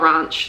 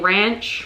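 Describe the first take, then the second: First: It is said with a New Zealand vowel. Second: It is said with an American vowel. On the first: It is the speaker's own habitual way. The speaker calls it wrong. "not ranch. That sounds so weird in my like New Zealand accent" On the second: It suits the Montana setting. The speaker calls it right. "I feel like I should be saying ranch"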